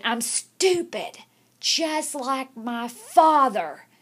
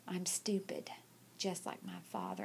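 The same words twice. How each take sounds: First: Louder, slow, every word dragged out; a boy forced to repeat it loud and slow; forced loud confession. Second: Whispered, barely audible, much softer; a beaten boy mumbling it under his breath; whispering a forced confession, ashamed. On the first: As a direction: say it out loud because she made him. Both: Retold or imitated. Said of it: "Say it like you mean it".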